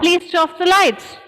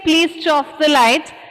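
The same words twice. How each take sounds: First: The phrase is said quickly, words running together. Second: The phrase is said at a normal pace.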